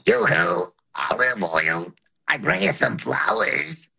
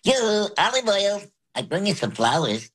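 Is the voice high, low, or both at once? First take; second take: both; high. First: High and low voices sound at once. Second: It is said in a high voice.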